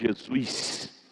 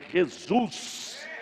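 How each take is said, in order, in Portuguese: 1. É dito com um sotaque local simples, sem afetação. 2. É dito com um sotaque afetado, imitado no estilo do Rio. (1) "Ele não chama Jesus" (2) "ele chama Jesus... esse sotaquezinho denominacional... remedando carioca"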